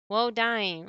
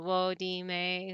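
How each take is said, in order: First: It is said as two syllables. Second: It is said as three separate syllables. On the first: The speaker calls it right. "but woe dime" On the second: The speaker calls it wrong. "I was pronouncing it like how the Japanese would do syllables"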